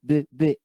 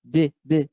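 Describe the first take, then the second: Both takes have the same delivery.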